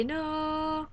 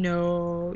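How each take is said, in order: First: "no" held long on a high, steady note; drawn-out no. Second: Said in the usual way. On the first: Shown as a demonstration. Teacher jokingly showing how to say no, drawn out high. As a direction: stretch "no" out high and soft, like a held tone. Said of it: "instead of saying no, you say". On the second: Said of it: "instead of saying no".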